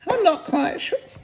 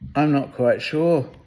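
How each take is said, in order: First: It is said in a different character's voice. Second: It is said in Pooh's voice.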